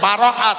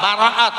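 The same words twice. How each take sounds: The two takes are said the same way.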